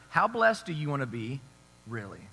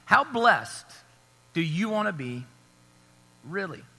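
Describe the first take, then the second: First: Said in the usual way. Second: "How blessed" leaned on, long pauses before "do you wanna be" and "really?"; slow emphatic question. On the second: Shown as a demonstration. Preacher pressing the congregation, paused and emphatic. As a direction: break it up and let each part land. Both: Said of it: "but I'm asking".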